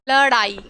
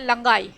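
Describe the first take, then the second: First: The middle consonant is a flapped retroflex d. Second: The middle consonant is a nasal ng sound. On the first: The speaker calls it right. "लड़ाई जब हम बोलते हैं तो ड़" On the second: The speaker calls it wrong. "ना कि हम ऐसे बोलेंगे लंगाई"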